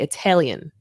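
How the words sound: The middle vowel sounds like e. It marks a speaker from a certain region. "like with an e in the middle instead of an a"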